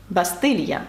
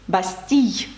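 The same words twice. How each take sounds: First: Said in the usual way. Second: "бастій" ending in a y glide; French pronunciation. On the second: Shown as a demonstration. Teacher demonstrating the letter combination, French pronunciation. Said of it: "це буквосполучення передає звук".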